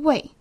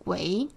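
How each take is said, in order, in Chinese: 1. “为”字读四声，是降调。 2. “为”字读二声，是升调。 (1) "而不是四声为" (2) "应该念作为二声为"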